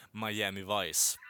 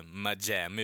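First: Said in the usual way. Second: MIAMI said the Swedish way, drawn out; Swedish pronunciation. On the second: Shown as a demonstration. Podcast host sounding out a series title, Swedish pronunciation of MIAMI. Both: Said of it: "bara svenskt uttal".

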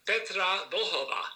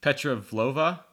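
First: "Vlhova" with a voiced l and a breathy h: vl-ho-va; correct pronunciation. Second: "Vlhova" said as vlo-va, skipping the l and h; anglicised attempt. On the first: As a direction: sound every consonant in "Vlhova". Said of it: "No, it's". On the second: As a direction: glide over "Vlhova" the English way. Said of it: "That's how I say it". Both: Shown as a demonstration.

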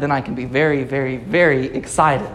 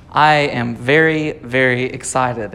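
First: Three weighted beats on "very, very, very"; escalating repetition. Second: Slow, measured "very, very", each one weighted; emphatic repetition. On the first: Preacher topping his own example, emphatic tripled "very, very, very". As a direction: stack "very, very, very", stressing each repeat in a low voice. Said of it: "if I'm more excited than very, very excited".

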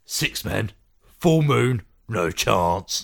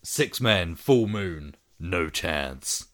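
First: Sean Pertwee accent. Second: Tagline in a light American accent, dropping low at the end. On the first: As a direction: do it as a gruff British Sean Pertwee. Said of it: "Do it in a Sean Pertwee accent". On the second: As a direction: read it like an American trailer with a low "no chance". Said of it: "I said that with an American accent". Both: Shown as a demonstration.

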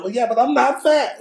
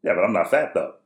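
First: Very high, loud child imitation; insistent little kid. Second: Matter-of-fact retort, imitating a son; unfazed kid. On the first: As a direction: protest like a stubborn small son. Son insists, against dad's lecture. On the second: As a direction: say it without batting an eye. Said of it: "without batting an eye".

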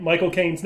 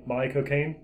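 First: Said in the usual way. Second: "Mike Cocaine" run together as Michael Caine says his name; "Mike Cocaine", low and British, as a name; Michael Caine's pronunciation. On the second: Shown as a demonstration. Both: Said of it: "how to say Mike, Michael Caine's name".

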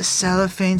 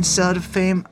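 First: "cell of fame" run together as one word; run-together pronunciation. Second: "cell to fame" as separate words with "to"; separated pronunciation. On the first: Host checking what the rapper says, "cell of fame" with a linking "of". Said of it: "When he says the cell of fame". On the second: Host correcting the lyric he heard, "cell to fame" with a clear "to". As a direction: sound out "cell to fame", a t opening the middle word. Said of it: "I'm pretty sure he says cell to fame". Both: Shown as a demonstration.

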